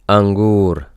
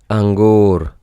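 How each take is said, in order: No difference in how they are said.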